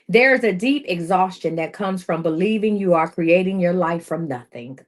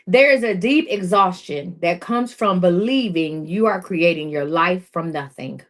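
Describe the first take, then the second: First: It is read at a normal pace. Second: It is read more slowly.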